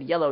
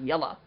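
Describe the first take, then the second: First: The word ends with a full 'oh' vowel. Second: The word ends with a reduced 'uh' vowel. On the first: "notice I said yellow" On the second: "not yella"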